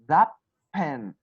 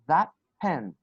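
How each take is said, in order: First: The final t of 'that' becomes p. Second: The final t of 'that' becomes p.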